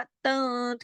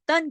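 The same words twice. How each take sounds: First: तन with the n held softened in the nose; hidden, nasalised n ending तन; taken into nose. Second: Said in the usual way. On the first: Shown as a demonstration. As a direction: trail तन off into a nasal hum. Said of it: "थोड़ा नाक में ले गए". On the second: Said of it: "तन की तरह नहीं बोला हमने".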